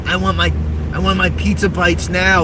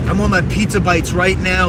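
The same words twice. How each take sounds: First: Bratty demand. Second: Louder bratty demand. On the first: Repeated demand. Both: Retold or imitated.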